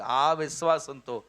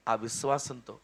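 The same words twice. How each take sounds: First: Slow, ఆ set apart from విశ్వాసంతో; stress on ఆ. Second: Said in the usual way. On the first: Shown as a demonstration. Preacher separating ఆ from విశ్వాసంతో to mean faith, not unbelief. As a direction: lean on ఆ, then say విశ్వాసంతో slowly. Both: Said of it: "అవిశ్వాసం కాదు".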